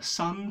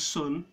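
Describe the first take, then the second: First: The vowel is an open, unrounded 'uh' sound. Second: The vowel is the rounded vowel of 'put'. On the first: "I use a completely different vowel" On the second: "sun becomes sun"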